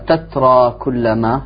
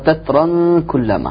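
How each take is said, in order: First: The first word ends without an added n sound. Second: The first word ends with an added n sound. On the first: "ولا يقرأها" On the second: "يقرأها"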